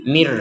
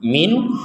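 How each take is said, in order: First: The word ends with an r sound. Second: The word ends with an n sound. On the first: The word is joined to the next word. "ketika digabung menjadi mir" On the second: The reader stops after this word. "kalau berhenti min"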